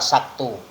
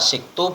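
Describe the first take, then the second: First: The first vowel is an a sound. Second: The first vowel is an i sound.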